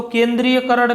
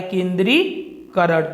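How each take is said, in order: First: केंद्रीयकरण said with an extra य, "ken-dree-ya-karan"; wrong form. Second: केंद्रीकरण said slowly with no य, "ken-dree-karan"; correct form. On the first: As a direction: say केंद्रीयकरण with a य sound before करण. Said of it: "नहीं होता है". (गलत रूप केंद्रीयकरण, य के साथ) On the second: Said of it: "वह होता है". (शुद्ध रूप केंद्रीकरण, बिना य के) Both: Shown as a demonstration.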